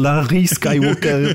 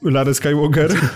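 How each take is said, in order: First: The name is said with a French accent. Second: The name is said without a French accent.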